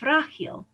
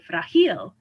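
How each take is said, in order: First: The stress is on the first syllable. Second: The stress is on the last syllable. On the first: The speaker calls it right. "stresses the second to last vowel" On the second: The speaker calls it wrong. "if the words were going to follow the rule, we would say"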